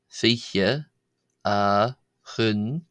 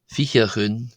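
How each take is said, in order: First: The phrase is said slowly. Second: The phrase is said quickly. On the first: "go through each one slowly" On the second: "read them out in a fast manner"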